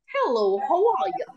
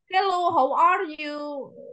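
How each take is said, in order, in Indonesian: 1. Diucapkan dengan aksen Inggris. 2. Diucapkan dengan aksen Amerika. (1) "itu British" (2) "Kalau yang American"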